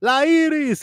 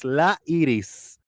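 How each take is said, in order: First: High-pitched "La Iris" street call; imitated call to a neighbour, pitched high. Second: Slow "La Iris", EE-rees; unhurried Spanish "La Iris"; Spanish pronunciation. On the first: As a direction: call it out far higher, Spanish "Iris". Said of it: "and we called it". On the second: Retold or imitated. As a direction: stretch "La", tap the r in "Iris". Spanish version of the name.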